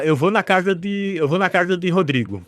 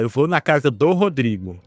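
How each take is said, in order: First: "de Rodrigo", said without the article; local Northeastern phrasing. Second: "do Rodrigo", with the article; Southeastern phrasing. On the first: Showing a friend how locals say it, local phrasing. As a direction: say "de Rodrigo" as people here do. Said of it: "É assim que a gente fala". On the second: Showing a friend how the Southeast says it, Southeastern phrasing. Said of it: "No Sudeste se fala". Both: Shown as a demonstration.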